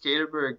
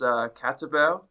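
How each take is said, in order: First: The name is said with an English pronunciation. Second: The name is said with a Dutch pronunciation. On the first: This is how the family has always said the name. "just the way that I've known it is Caterberg" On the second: This is how Dutch speakers say the name. "it's meant to be pronounced Caterberg"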